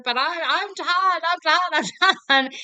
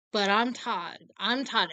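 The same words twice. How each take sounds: First: Screaming. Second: Said in the usual way. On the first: Retold or imitated. Son screaming his name back at his mother, mock scream. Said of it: "start screaming that at each other".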